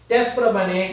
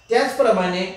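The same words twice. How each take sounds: Both takes have the same delivery.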